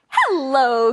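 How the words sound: It is said in a friendly tone.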